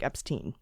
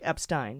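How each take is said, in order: First: The second syllable has the vowel of 'ee'. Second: The second syllable has the vowel of 'eye'. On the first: "And if it's I E, it's pronounced E" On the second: "So if it's E I, it's pronounced I"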